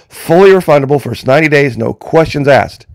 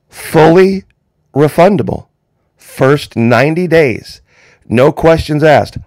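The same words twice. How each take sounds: First: It is said at normal speed. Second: It is said slowly.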